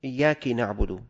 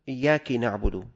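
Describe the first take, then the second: First: The k carries an i vowel. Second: The same.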